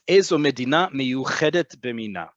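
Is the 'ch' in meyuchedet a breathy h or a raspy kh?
raspy kh. The ch sound is a raspy back kh. This is the standard modern Hebrew way. "but it's"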